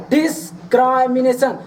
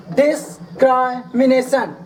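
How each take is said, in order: Both takes have the same delivery.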